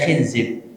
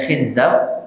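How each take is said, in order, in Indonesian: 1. Vokalnya adalah i, lalu i. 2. Vokalnya adalah i, lalu a. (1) "ada pula yang membacanya khinzib" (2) "ada pula yang membacanya khinzab"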